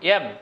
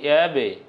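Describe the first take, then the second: First: The final b stops flat, with no echo. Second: The final b bursts with an extra echoing sound. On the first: The speaker calls it wrong. "একটি অ্যাব আমরা বলতাম এরকম অ্যাব" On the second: The speaker calls it right. "মুখ ফেটে আরও একটি অতিরিক্ত আওয়াজ বের হয়েছে, যাকে বলছি আমরা প্রতিধ্বনি"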